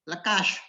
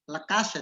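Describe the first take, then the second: First: The final consonant is a thick sh sound. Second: The final consonant is a thin s sound. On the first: The speaker calls it wrong. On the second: The speaker calls it right.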